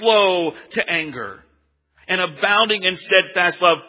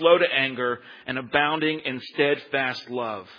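First: It sounds joyful and full of praise. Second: It sounds resentful and accusing, not happy. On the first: The speaker is celebrating this quality. "like Jonah is praising God" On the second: The speaker is complaining about this quality. "Did that sound happy to you?"

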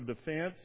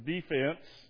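First: The word is said in a standard accent. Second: The word is said in a Southern accent.

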